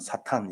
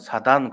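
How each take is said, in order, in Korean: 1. s로 시작하고, 분명한 tan으로 끝나요. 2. s로 시작하고, 부드러운 dan으로 끝나요. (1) "우리는" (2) "옛날에는"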